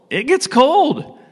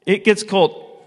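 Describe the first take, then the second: First: It gets cold, slow, high, with gets lifted hard; stress on gets. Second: Said in the usual way. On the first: Shown as a demonstration. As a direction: lean slowly on gets, high and emphatic. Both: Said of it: "what happens outside at night?".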